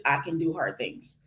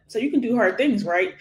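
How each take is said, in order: First: Said in the usual way. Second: "can do hard things" lifted higher, then "right?"; higher-pitched "can do hard things", seeking a yes with "right?"; said as a question. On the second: Shown as a demonstration. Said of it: "you say it as a question".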